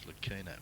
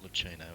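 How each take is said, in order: First: The H in the name is silent. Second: The H in the name is pronounced. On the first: The speaker calls it right. "it's Lucchino" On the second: The speaker calls it wrong. "You don't pronounce the H in Lucchino, it's Lu- not Lucchino"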